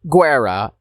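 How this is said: It is pronounced the Italian way.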